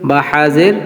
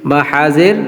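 The two takes are said the same way.

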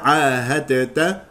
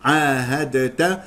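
The two takes are said the same way.

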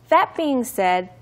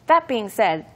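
First: The phrase is said at normal speed. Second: The phrase is said a little faster. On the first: "let's read the whole sentence together" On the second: "one more time, just a little bit faster"

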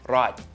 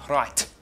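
First: The final T is soft and weak. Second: The final T is strongly spat out. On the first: The speaker calls it wrong. "It's not right" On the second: The speaker calls it right. "It's really well pronounced, it's spat out"

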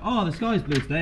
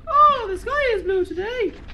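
First: It is said in a normal voice. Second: It is said in a high-pitched voice.

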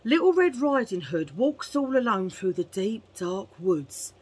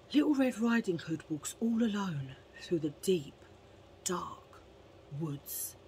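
First: It is told in a plain, ordinary way. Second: It is told in a dramatic, suspenseful way.

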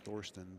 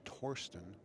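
First: The name is pronounced the American way. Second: The name is pronounced the German way. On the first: "the Americanized version is Thorsten" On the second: "the official German pronunciation is most likely Thorsten"

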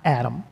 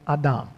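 First: The name is pronounced the familiar English way. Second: The name is pronounced the Hebrew way. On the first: It names a single male person. The speaker calls it wrong. "Not Adam" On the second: It names an earth being, both male and female. The speaker calls it right. "but Adam"

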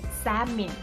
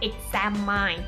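First: The last syllable does not sound like 'mine'. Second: The last syllable sounds like the word 'mine'. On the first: The speaker calls it right. "แต่เป็น" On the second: The speaker calls it wrong. "ไม่ได้ออกว่า"

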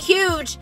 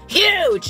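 First: The word is said at a normal volume. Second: The word is said loudly, almost shouted. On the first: The word is written in ordinary letters. The speaker calls it wrong. "not huge" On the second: The word is written in all caps. The speaker calls it right. "huge is all caps"

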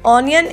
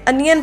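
First: The first vowel is an open 'aw' sound. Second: The first vowel is a short 'uh' sound. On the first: The speaker calls it wrong. "ऑनियन इसे नहीं पढ़ते" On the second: The speaker calls it right. "बल्कि इसे अनियन पढ़ते हैं"

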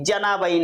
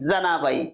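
First: The first consonant is a palatal 'j' sound. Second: The first consonant is a dental-alveolar 'dz' sound. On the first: The speaker calls it wrong. "जनाबाई नाही" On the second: The speaker calls it right. "दंतमुलीय उच्चार आहे"

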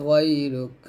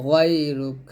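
The two takes are said the same way.

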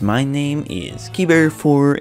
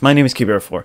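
First: It is said in a strange, unusual voice. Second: It is said in his normal voice.

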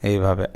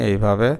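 No difference in how they are said.

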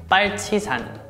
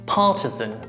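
First: It is said with Korean pronunciation. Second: It is said with British pronunciation. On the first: "Korean pronunciation" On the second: "British pronunciation"

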